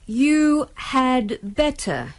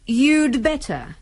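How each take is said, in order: First: Slow, with 'had' said in full. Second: Quick, with 'had' reduced to a 'd'. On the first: "Kalau diucapkan dengan perlahan-lahan" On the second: "dalam percakapan sehari-hari diucapkan"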